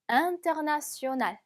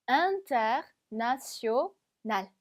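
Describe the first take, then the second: First: "international" in one connected go, no pauses; joined up. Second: "international" slowly in chunks: in-ter, na-tio, nal; broken into chunks. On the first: Teacher puts "international" back together for learners, joined up. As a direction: link all syllables of "international" together. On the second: Teacher builds up "international" for learners, chunk by chunk. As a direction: pause between the parts of "international". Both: Shown as a demonstration. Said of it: "붙여보면".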